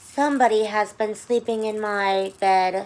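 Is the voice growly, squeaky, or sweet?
sweet. The voice is soft, sweet and low. "in her soft, sweet, low voice"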